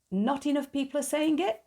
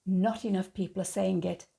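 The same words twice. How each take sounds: First: Incredulous echo. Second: Said in the usual way. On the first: Real, not acted. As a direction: pitch jumps higher in disbelief on the whole line.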